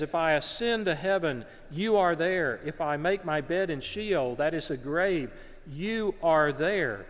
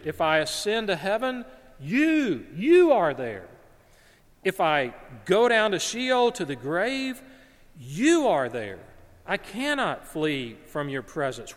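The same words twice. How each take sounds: First: Said in the usual way. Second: "you" punched high and loud each time; stress on you. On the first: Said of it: "the "you" is emphatic". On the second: Shown as a demonstration. Preacher shows the emphatic "you" in Hebrew, booming "you". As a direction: hit "you" hard, climbing louder. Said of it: "so you could read it".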